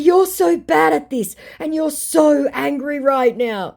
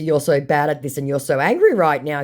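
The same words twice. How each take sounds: First: High, slow, singsong-like needling; mock taunting. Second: Said in the usual way. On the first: Baiter goading the angry scammer, taunting. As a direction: draw out a gleeful tease, louder.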